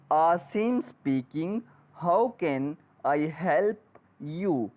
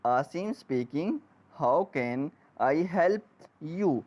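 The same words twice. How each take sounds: The two takes are said the same way.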